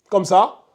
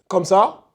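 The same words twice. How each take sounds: No difference in how they are said.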